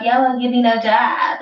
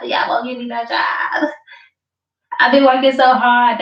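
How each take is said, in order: First: Lightly voiced whiny complainer; a hint of a sulky job-seeker; mock whiny plea. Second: Mock tearful yell, rising; mock crying wail. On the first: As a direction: whine it like a beggar, half-mocking. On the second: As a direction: wail it like a fake crybaby. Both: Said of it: "You was begging for a job".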